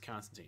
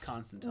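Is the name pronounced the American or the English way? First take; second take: American; English. First: The name is said the American way. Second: The name is said the English way. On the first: "We've since Americanized it, and it's Constantine" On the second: "in England, it's pronounced Constantine"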